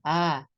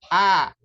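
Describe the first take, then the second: First: The vowel is said with breath escaping. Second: The vowel is said with the breath held. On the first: The speaker calls it wrong. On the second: The speaker calls it right. "Jadi nafasnya tertahan"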